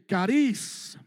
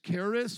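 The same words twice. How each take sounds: First: It is said with a Greek accent. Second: It is said with a plain English accent.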